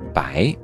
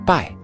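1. 这个字是升调。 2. 这个字是降调。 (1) "第6 版增加注音白" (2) "第5 版注音是拜"

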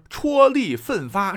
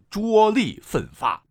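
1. 第一个音节读 chuo。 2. 第一个音节读 zhuo。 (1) "而戳力奋发" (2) "绝不能读成拙力奋发"

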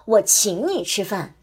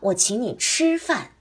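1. 重音落在“请”上。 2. 重音落在“吃”上。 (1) "第一个我请你吃饭的重音是在请字上" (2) "第二个把重音放在了吃字上"

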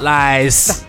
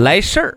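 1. 这个词用四川话说，不带儿化音。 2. 这个词用普通话说，带儿化音。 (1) "四川话嘛就是来事" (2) "用普通话说"

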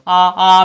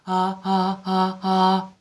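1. 元音发得饱满，没有气声。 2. 元音发声时漏气很多。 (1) "由原来的真声" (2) "变成"

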